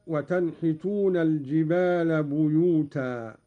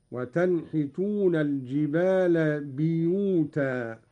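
First: Said in the usual way. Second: بيوتا said biyutan, with i after the b; kasra on the ba. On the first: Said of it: "بكسر الباء". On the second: Shown as a demonstration. Sheikh demonstrating Qalun's reading, بيوتا as biyutan. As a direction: open بيوتا on bi rather than bu. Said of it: "بكسر الباء، هكذا".

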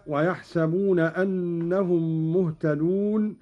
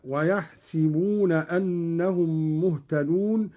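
First: Said in the usual way. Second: ويحسبون said "wayahsibuna", i after the sin; kasra on ويحسبون. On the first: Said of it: "قرأ قالون بكسر السين". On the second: Shown as a demonstration. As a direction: say si, not sa, in ويحسبون. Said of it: "قرأ قالون بكسر السين هكذا". (ويحسبون بكسر السين)

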